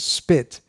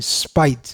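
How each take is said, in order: First: The vowel is a short 'ih' sound. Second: The vowel is a long 'eye' sound. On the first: "The general pronunciation is spit" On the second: "Srila Prabhupada would say spite"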